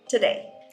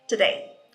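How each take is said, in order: First: The first syllable has a reduced vowel. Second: The same.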